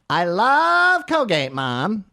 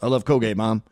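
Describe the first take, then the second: First: The voice is pitched higher. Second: The voice is pitched lower. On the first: The speaker calls it wrong. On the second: The speaker calls it right.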